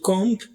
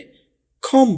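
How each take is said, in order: First: The word ends with an audible b sound. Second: The word ends with an m sound only. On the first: The speaker calls it wrong. "कॉम्ब नहीं बोलना आपने" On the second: The speaker calls it right. "कॉम बोलना है"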